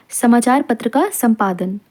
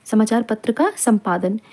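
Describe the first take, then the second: No difference in how they are said.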